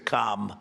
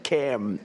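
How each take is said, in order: First: The first vowel sounds like in 'calm'. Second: The first vowel sounds like in 'cat'. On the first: This is how the other Kamala's name is said. The speaker calls it wrong. "as opposed to Com. Well, we don't like Com" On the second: This is how the prime minister's name is said. The speaker calls it right. "It's Cam, right? Cam"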